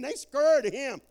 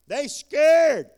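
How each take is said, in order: First: Said in the usual way. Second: Loud, high shout on scared; preacher shouting They scared to the congregation. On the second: Acted. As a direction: belt out They scared, landing hard on scared.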